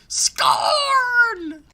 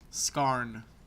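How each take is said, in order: First: The name is yelled loudly. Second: The name is said at a normal volume.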